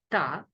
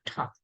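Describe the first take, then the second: First: Ta with no puff of air after the t; Indian unaspirated T. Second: Ta with a puff of air after the t; American aspirated T. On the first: Teacher showing the Indian accent, unaspirated ta. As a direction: say ta with a plain Indian t. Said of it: "in Indian accent we call it". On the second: Teacher showing other countries' accent, aspirated ta. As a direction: say ta as tha, H after a hard T. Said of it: "but in American or other". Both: Shown as a demonstration.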